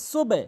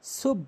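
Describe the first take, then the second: First: সুবে with the b opened into a vowel; correct সুবে. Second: সুব closed on the b; mispronounced সুব. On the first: Teacher labelling the right way, open সুবে. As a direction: release সুবে into two syllables. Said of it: "সঠিক উচ্চারণ হচ্ছে". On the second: Teacher labelling the wrong way, closed সুব. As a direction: say সুব as one shut syllable. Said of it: "ভুল উচ্চারণ". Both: Shown as a demonstration.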